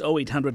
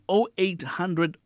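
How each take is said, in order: First: The number is read at a normal pace. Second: The number is read at a slower pace.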